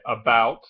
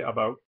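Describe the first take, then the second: First: "about" said the usual American way; American pronunciation. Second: "about" with a Canadian raised vowel; Canadian pronunciation. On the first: Vlogger showing how Americans say "about", American vowel. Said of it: "in America, we say about". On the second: Vlogger showing how Canadians say "about", Canadian vowel. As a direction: say "about" nearer "a-boat", Canadian style. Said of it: "In Canada, they say about". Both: Shown as a demonstration.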